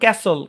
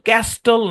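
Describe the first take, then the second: First: The t sound is left out. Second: The t sound is clearly pronounced. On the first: The speaker calls it right. "শব্দের শেষে S টি এল ই থাকলে টি silent, যেমন ক্যাসল" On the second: The speaker calls it wrong. "ক্যাস্টল না"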